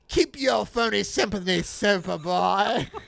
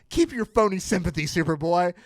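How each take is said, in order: First: It is read in a put-on villain voice. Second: It is read in the speaker's ordinary voice.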